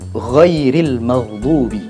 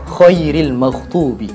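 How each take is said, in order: First: The consonant is a soft voiced gh sound. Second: The consonant is pressed hard, like a kh. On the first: The speaker calls it right. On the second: The speaker calls it wrong.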